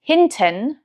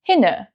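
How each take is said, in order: First: The t sound in the middle is pronounced. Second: The t sound in the middle is dropped. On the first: This is standard German. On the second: This is the Hessian dialect.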